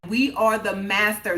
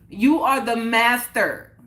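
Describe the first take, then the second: First: It is said at normal volume. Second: It is said louder.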